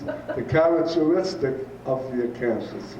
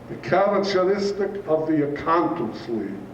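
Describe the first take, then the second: First: It is spoken in a plain native accent. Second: It is spoken with a German accent. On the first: This explains what the teacher meant. "That means" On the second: This imitates how the teacher spoke. "All due to his German accent"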